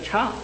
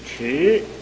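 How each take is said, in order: First: The syllable is said as cha. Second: The syllable is said as chi, falling tone. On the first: The speaker calls it wrong. "不能读个差" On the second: The speaker calls it right. "去声就是迟啊"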